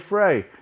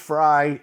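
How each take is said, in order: First: The name rhymes with 'fray'. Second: The name rhymes with 'fry'. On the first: This follows the way the name is spelled. "It's spelled Frey. So I'm going to say Frey" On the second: This is how some other people say it. "Some say it's Fry"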